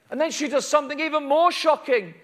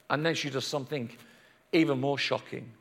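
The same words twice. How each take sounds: First: High-pitched, emphatic preaching; urgent, raised storytelling; dramatic build-up. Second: Low, soft confiding voice; quiet, ominous storyteller aside; hushed suspense. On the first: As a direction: announce it to the whole room. Shocking next act announced at full pitch. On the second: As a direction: drop right down and draw them in. Same words repeated hushed for suspense. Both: A narrator's reading.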